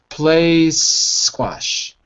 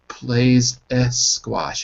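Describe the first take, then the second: First: The two words join smoothly with no extra vowel. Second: An extra vowel syllable separates the two words. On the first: The speaker calls it right. "It's it's a smooth connection" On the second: The speaker calls it wrong. "you're adding an extra syllable"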